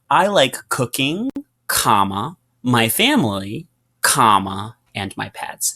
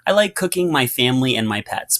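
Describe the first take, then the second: First: It is said with pauses between items. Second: It is said without any pauses.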